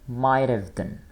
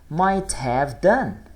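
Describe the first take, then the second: First: It is said quickly, words run together. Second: It is said slowly, each word separate.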